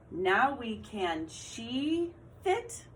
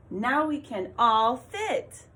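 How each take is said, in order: First: Slow with rising end on "fit"; slow trial read. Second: Slow, louder, eager read of "Now we can all fit"; excited reading. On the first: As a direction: try "she" in slowly. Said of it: "What one made sense?". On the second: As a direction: read it with exclamation-point excitement. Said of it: "So your voice should sound excited". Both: Shown as a demonstration.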